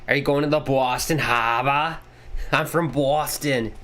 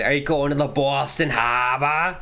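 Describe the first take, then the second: First: Put-on playful Boston accent with dropped r's. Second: Put-on repeated jokey Boston accent, no r in harbor. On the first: Streamer jokes about being from Boston, in a Boston accent. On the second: Streamer repeats his one Boston accent line. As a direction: lay on the Boston accent once more. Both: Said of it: "only thing I can say in a Boston accent".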